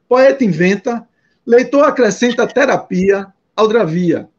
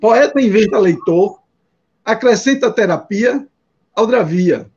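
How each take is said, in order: First: Pauses fall after inventa and after terapia. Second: Pauses fall after leitor and after terapia. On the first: "dar um ritmo diferente" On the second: "Mas você pode ler assim"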